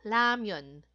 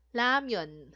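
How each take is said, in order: Both takes have the same delivery.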